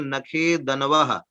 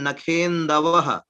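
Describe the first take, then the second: First: The n sound comes after the d. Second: The n sound comes before the d. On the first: The speaker calls it wrong. "बोल दिया नखेदनवः" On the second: The speaker calls it right. "वो है नखेन्दवः"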